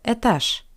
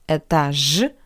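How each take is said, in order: First: The final consonant is a voiceless sh sound. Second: The final consonant is a voiced zh sound. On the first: The speaker calls it right. "The voiced consonant Ж changed to Sh" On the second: The speaker calls it wrong. "Not этаж"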